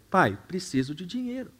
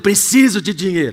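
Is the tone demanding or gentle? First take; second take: gentle; demanding. First: It sounds gentle and pleading. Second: It sounds demanding and impatient.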